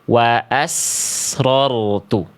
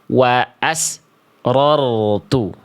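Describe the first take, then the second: First: The s flows straight into the next sound. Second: The s breaks off with a silent gap after it. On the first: The speaker calls it right. "Tapi harus ngalir" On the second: The speaker calls it wrong. "suaranya terputus. Contoh, contohnya begini. Bunyi sinnya dibaca begini"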